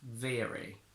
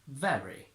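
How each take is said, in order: First: American accent, with a lower, longer e sound. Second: British accent, with a short, open e sound. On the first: "the e goes down and it gets longer" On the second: "So from British to American"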